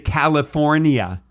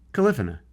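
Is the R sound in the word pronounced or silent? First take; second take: pronounced; silent. First: The R sound in the middle is pronounced. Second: The R sound in the middle is left out. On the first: The speaker calls it wrong. "I bet you also say California" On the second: The speaker calls it right. "The R is silent"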